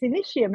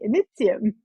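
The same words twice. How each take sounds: First: The middle consonant is an sh sound. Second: The middle consonant is a plain t sound. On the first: The speaker calls it wrong. "it can't be because there's no sh in Latin" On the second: The speaker calls it right. "It's meant to be Initium"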